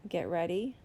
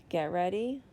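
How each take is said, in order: Both takes have the same delivery.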